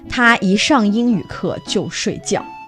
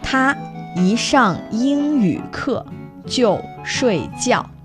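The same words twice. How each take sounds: First: It is said at normal speed. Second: It is said slowly.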